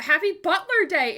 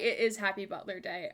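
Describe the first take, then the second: First: Excited. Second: Said in the usual way. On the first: Real, not acted. Cheering birthday.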